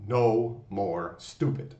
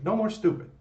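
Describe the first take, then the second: First: Very slow, each word weighted; No more stupid drawn out word by word; slow affirmation. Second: Much higher, louder punchy No more stupid; quick high shouted No more stupid; pre-roll catchphrase. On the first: Shown as a demonstration. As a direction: say it like a daily vow. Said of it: "I want you to say, as an affirmation". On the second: Retold or imitated. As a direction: fire off the channel catchphrase. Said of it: "You see that at the pre-roll".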